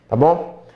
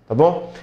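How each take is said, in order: The two takes are said the same way.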